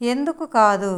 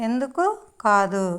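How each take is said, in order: First: Said in the usual way. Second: ఎందుకు rising, pause, కాదు dropping; word by word. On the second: Shown as a demonstration. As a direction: split ఎందుకు from కాదు, lifting the first. Teacher models phrase word by word. (ఎందుకు, కాదు పదాల మధ్య ఆగి చెప్పడం)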